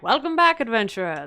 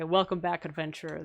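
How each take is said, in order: First: Pitched-up, loud opening that drops away; game character's welcome line; statue's greeting. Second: Said in the usual way. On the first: Retold or imitated. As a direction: hail the returning hero. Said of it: "And he's like". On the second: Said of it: "And I was like".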